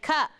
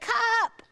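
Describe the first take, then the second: First: It is said as a plain statement. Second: It is said as a demanding request. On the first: The child states that this is a cup. "This is a cup" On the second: The child wants his cup. "because he wants his cup"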